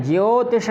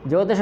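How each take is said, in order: First: ज्योतिष with a clear ज्यो glide; ज्योतिष, the य clearly heard; correct pronunciation. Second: ज्योतिष flattened to जोतिष, no य; the wrong ज्योतिष said as जोतिष; ज्योतिष with the glide dropped; wrong pronunciation. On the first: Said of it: "ज्योतिष कहना है". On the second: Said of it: "ज्योतिष नहीं कहना है". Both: Shown as a demonstration.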